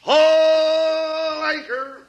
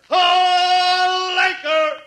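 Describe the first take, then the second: First: Drawn-out shout; long bellowed order. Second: Drawn-out shout back; long bellowed echo. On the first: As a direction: call it out slowly. Shouted nautical command. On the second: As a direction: echo the order slowly. Echoing the shouted command. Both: Acted.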